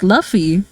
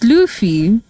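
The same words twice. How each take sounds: First: The name rhymes with the word fluffy. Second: The name does not rhyme with fluffy. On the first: The speaker calls it wrong. "like it could be like Luffy, like fluffy" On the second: The speaker calls it right. "But no, it's Luffy"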